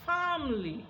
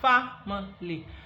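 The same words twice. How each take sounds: First: The middle vowel is dropped, giving two syllables. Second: The word is said with three full syllables. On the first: "when we delete that schwa sound ... the pronunciation becomes family" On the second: "this family that it has three syllables now"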